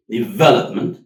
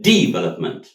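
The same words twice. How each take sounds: First: Development stressed on the second syllable, VEL; right stress. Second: Development with the weight on the last syllable; Development, stress on -ment; wrong stress. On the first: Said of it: "in the right word". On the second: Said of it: "it doesn't sound English". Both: Shown as a demonstration.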